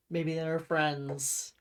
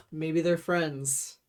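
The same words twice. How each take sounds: The two takes are said the same way.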